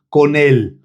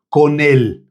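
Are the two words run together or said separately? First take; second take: run together; run together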